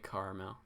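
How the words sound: It is said in an American pronunciation. "like Americans would say it"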